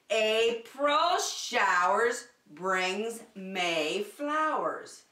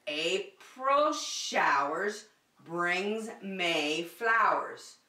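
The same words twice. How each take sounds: The two takes are said the same way.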